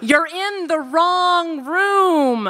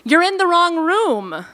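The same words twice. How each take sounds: First: It is said in a Californian accent. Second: It is said in a plain, neutral accent.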